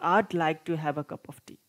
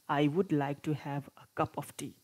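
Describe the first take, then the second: First: The verb is contracted into one syllable. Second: The verb is said as a separate full word. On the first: "contracted forms of verbs" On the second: "without contracted forms"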